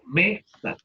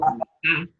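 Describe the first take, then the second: First: The stress is on the first syllable. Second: The stress is on the last syllable. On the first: The speaker calls it right. "al me le ponemos mayor intensidad" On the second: The speaker calls it wrong. "No decimos mesa"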